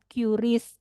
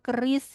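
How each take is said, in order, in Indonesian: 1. Diawali dengan bunyi nama huruf 'kyu'. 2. Diucapkan seperti kata 'keris'. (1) "bukan QRIS" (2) "yang betul sebetulnya bacanya keris"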